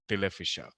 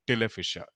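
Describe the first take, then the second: The two takes are said the same way.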